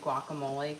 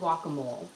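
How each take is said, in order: First: The final E sound is clearly pronounced. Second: The final E sound is left off. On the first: The speaker calls it right. "cannot say guacamole correctly" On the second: The speaker calls it wrong. "She just can never say that E sound on it"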